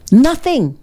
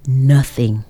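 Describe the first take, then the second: First: Emphatic nothing. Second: Said in the usual way. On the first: Real, not acted.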